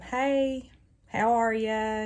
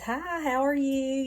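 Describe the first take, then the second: First: It is said in a flat, unenthusiastic way. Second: It is said in a bubbly, cheerful way.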